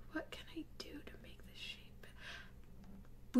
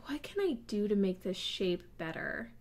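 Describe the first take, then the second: First: Breathy whispered repeat after a sigh; exasperated whisper. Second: Said in the usual way. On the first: Real, not acted. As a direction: whisper it to yourself in defeat.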